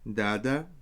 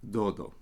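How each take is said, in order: First: It is said with ah vowels. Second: It is said with West Syriac oh vowels.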